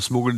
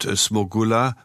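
First: The name is stressed the usual German way. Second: The name is stressed the Polish way.

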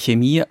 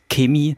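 First: Chemie is said in the speaker's own usual way. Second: Chemie is said the way people from Bavaria say it. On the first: This is the variant the speaker personally uses. "Ich sage Chemie" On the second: This is the variant used in Bavaria. "Meine Frau, die aus Bayern kommt, sagt Chemie"

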